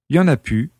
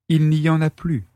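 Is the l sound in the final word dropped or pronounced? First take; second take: dropped; pronounced. First: The final word is said as pu, without l. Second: The final word is said as plus, with l. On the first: This is casual, familiar speech. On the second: This is standard, careful speech.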